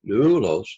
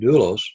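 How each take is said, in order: First: The first syllable clearly rises then falls in pitch. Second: It is said quickly with no audible pitch movement. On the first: "it rises in pitch and comes down, doulos, doulos, kind of like that" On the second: "you don't really hear it as we say it very quickly"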